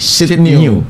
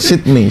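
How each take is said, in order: First: The second syllable sounds like 'now'. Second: The second syllable sounds like 'nay'. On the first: This is the name as it was originally said. "dari kata new baru" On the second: This is the name as it is said today. "bukan Sydney"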